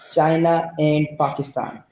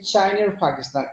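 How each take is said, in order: First: The words join with no r sound between them. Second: An r sound links China to the next word. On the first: "in Pakistani accent we used to say" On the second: "whenever you we follow the accent of Britishers, they used to say"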